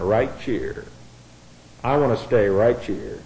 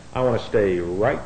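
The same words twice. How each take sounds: First: North Carolina drawl. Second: Said in the usual way. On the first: Shown as a demonstration. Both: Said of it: "we'll put it in the vernacular of North Carolina".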